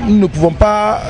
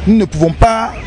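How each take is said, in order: Both takes have the same delivery.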